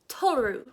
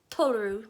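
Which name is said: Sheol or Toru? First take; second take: Toru; Toru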